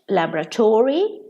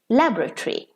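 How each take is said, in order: First: It is said with an American pronunciation. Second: It is said with a British pronunciation. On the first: "In American English" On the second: "In British English"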